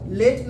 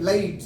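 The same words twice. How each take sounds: First: लेट with one pure "ey" vowel; Hindi-style late. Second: लाइट as "leh-eet", the vowel gliding; English-style late. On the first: Teacher showing the form to avoid, लेट with a pure vowel. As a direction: say लेट short, without a glide. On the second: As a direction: let the vowel of लाइट slide into "ee". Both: Shown as a demonstration. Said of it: "लेट ना बोल करके बोलते हैं".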